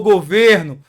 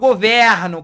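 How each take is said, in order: First: The stressed vowel is closed. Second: The stressed vowel is open. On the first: It is a noun meaning the government. "pronúncia fechada" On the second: It is a verb meaning I govern. "com a pronúncia aberta"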